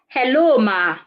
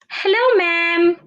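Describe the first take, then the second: First: The pitch falls at the end. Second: The pitch rises at the end. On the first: The speaker calls it wrong. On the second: The speaker calls it right. "you can also use a rising intonation"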